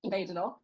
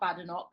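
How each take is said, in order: First: The first syllable does not sound like 'bad'. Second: The first syllable sounds like the word 'bad'. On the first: The speaker calls it right. "as she says" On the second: The speaker calls it wrong. "is not Badenoch because there's no bad in her name"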